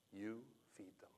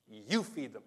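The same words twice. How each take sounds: First: Soft, steady whisper; whispered command. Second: Said in the usual way. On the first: Retold or imitated. Jesus answering the protesting disciples in a calm whisper. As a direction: hush it like a final word. Gives you the same answer.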